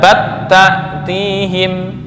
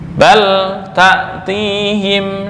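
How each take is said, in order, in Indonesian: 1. Huruf l menyatu dengan bunyi t yang ditasydid. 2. Huruf l diucapkan dengan jelas sebelum t. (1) "menurut Hafiz nggak boleh dibaca" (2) "menurut Hafiz ... dihukumi idhar"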